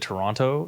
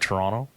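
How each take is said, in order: First: The second T is pronounced fully and clearly. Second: The second T is dropped or softened. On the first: The speaker calls it wrong. "you said Toronto" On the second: The speaker calls it right. "instead of Toronto"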